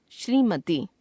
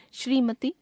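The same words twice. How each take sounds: First: Said in the usual way. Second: श्रीमती ending on short इ, rising; wrong pronunciation. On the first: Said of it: "शुद्ध". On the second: Shown as a demonstration. Teacher showing a common error, श्रीमती with short last vowel. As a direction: cut the final ती of श्रीमती to ति. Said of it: "अशुद्ध".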